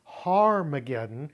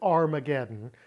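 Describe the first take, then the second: First: The word starts with an h sound. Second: The word starts with a vowel sound. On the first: The speaker calls it right. "It's Harmageddon because in Hebrew, Har means mount" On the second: The speaker calls it wrong. "Never pronounce it Armageddon"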